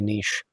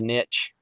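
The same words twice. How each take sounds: First: It is said in a British accent. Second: It is said in an American accent. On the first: "but over in Britain, it's uh, most likely a niche" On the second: "over here in America, we'd call it a niche"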